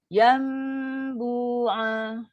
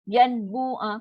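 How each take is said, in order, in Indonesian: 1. Huruf n menjadi dengung sengau yang panjang sebelum b. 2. Huruf n diucapkan dengan jelas tanpa dengung sengau. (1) "So mesti dengung yang panjang" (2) "Kan susah"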